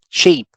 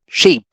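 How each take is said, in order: First: The vowel is cut short and clipped. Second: The vowel is cut short and clipped.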